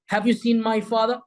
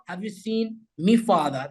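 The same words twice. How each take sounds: First: Said in the usual way. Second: "me" in place of my, said "mee"; Scouse "me father". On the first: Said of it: "They don't say my". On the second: Shown as a demonstration. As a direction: ask it with "me father", as in Liverpool. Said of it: "they say me".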